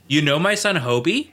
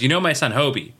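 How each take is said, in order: First: It ends with a rise, like a question. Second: It ends flat or falling, not a question.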